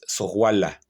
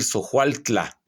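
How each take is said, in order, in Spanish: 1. El nombre pierde el sonido 'tl' al final. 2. El nombre conserva el sonido 'tl' al final. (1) "pero es Sohuala" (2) "Literalmente debe decir Sohualtla"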